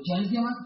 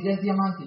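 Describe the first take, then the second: First: "diamante" rising, low and soft; echo question. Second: "diamante" falling, softly stated; matter-of-fact statement. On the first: Checking Carlos Eduardo's rank, low questioning rise on "diamante". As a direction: repeat "diamante" as a hushed question. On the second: Friend reporting Carlos Eduardo's rank, falling "diamante". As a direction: state "diamante" as settled news. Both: Retold or imitated.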